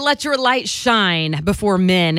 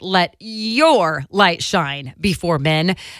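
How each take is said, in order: First: The word 'your' is not emphasized. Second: The word 'your' is emphasized.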